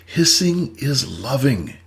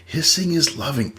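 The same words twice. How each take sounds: First: "Hissing is loving" slowed, each word weighted; slow emphasis. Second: Said in the usual way. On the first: Shown as a demonstration. Therapist driving home the lesson, slow and deliberate. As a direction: let "Hissing is loving" land slowly. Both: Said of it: "Never told you not to hiss".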